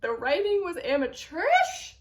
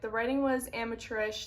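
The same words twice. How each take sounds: First: AMATEURISH pitched up into a shocked question; incredulous echo. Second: Said in the usual way. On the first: Real, not acted. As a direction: repeat it in disbelief, swooping up on "amateurish". Echoes the review in disbelief.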